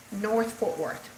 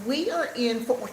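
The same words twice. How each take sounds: First: North stressed and slowed. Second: Said in the usual way. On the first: Shown as a demonstration. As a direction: lean on North, slowly. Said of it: "to be exact". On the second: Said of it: "North Fort Worth, to be exact".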